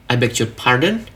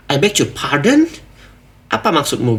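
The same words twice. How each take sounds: First: Gentle, rising "I beg your pardon" as a real question; soft polite tone. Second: Offended. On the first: Teacher showing the soft polite "I beg your pardon". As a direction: ask softly, just checking what was meant. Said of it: "masih soft lah ya". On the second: Teacher acting someone angry at an outfit insult. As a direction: take offence at the insult about your outfit. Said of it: "mereka tuh marah gitu". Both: Shown as a demonstration.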